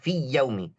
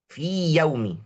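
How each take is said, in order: First: The long vowel merges into the next sound. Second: The long vowel stays separate from the next sound. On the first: The speaker calls it wrong. "jangan baca fi yaumi" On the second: The speaker calls it right. "Imam Jazari suruh kita jelaskan"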